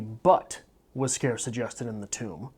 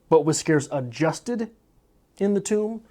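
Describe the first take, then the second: First: The stress is on the word scarce. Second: The stress is on the word adjusted.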